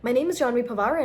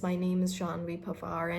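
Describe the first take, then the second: First: It is spoken very fast. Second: It is spoken very slowly. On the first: "don't even speak too fast. Like" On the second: "Not very slowly, not like"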